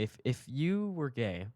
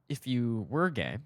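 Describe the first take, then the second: First: Slow repeat, YOU drawn out and raised; stress on YOU. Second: Slow, with WERE swooping in pitch; stress on WERE. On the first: Teller repeating himself to puzzled Brian, YOU stressed. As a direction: restate it, pitch arching up on "you". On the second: Teller reassuring Brian in a retold airport talk, WERE stressed. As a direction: lean hard on "were" as a hypothetical. Acted reply, hypothetical stressed. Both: Retold or imitated.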